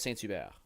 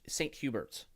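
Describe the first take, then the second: First: It is pronounced with a French pronunciation. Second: It is pronounced with an English pronunciation. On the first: The speaker calls it right. "but I know it's Saint Hubert" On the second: The speaker calls it wrong. "if you're English, you might read that and go"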